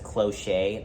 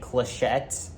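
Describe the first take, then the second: First: The final T sound is left silent. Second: The final T sound is pronounced. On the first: The speaker calls it wrong. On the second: The speaker calls it right.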